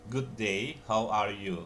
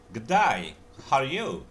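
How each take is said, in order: First: It is said in a standard accent. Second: It is said in an Australian accent.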